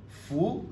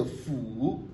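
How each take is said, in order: First: "Fou" rising high; "Fou" short, climbing in pitch; second-tone change. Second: "fou" drawn out, dipping then rising; "fou" alone with a falling-rising tune; full third tone. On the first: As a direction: lift "Fou" straight up like a question. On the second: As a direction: slowly sink and lift "fou". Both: Shown as a demonstration. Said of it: "le premier devient deuxième ton".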